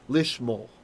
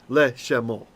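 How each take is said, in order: First: The first vowel is an 'ee' sound. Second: The first vowel is a short 'e' sound. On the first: The speaker calls it right. "he lengthens to the single dot there, chirik" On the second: The speaker calls it wrong. "we can't say le she, le shemo"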